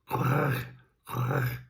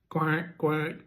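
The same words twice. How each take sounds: First: The quack sounds raspy, hissing and rattling. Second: The quack sounds plain and clean. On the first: A male duck makes this call. "like a a cross between a quack, a hiss, and a rattle" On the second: A female duck makes this call. "let's do a duck first"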